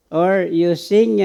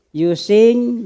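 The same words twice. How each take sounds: First: "or you sing" stretched slowly at normal volume; slow careful singing. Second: "You sing" pushed out louder and higher; top of your voice. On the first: Preacher contrasting a slower, careful way of singing. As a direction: draw "or you sing" out gently. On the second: Preacher urging the congregation to sing out boldly, loud. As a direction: belt "You sing" like singing out full. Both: Shown as a demonstration. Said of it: "maybe at the top of your voice".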